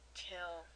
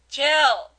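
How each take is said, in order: First: The word is said at a quieter volume. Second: The word is said at a louder volume.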